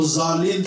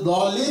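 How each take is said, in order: First: The letter is pronounced with a z sound. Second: The letter is pronounced with a d sound. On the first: The speaker calls it wrong. "वो ज़ालीन पढ़ते हो दाद को" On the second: The speaker calls it right. "वो तो दालीन ही पढ़ते हैं"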